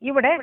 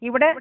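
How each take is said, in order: Both takes have the same delivery.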